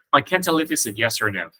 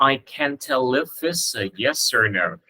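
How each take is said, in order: First: "tell if it's a" run together at normal pace; linked words. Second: "tell if it's a" linked, said slowly; linked words. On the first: Teacher repeats the sentence for students, words linked at everyday pace. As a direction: link "tell if it's a" in one smooth flow. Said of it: "Cái này có ba chữ nối âm lận". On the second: Teacher models linking for students, slow linked words. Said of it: "Câu này nếu các bạn nối âm qua được". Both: Shown as a demonstration.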